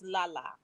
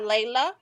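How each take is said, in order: First: The first syllable has an 'ah' vowel. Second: The first syllable has an 'ay' vowel. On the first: The speaker calls it right. "it's Lala" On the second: The speaker calls it wrong. "it's not Layla"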